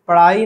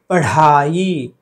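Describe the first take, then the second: First: The middle consonant is plain, without breathiness. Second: The middle consonant is breathy, with aspiration. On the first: The speaker calls it wrong. "पढ़ाई नहीं होती है" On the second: The speaker calls it right. "ढ है वो, ड नहीं"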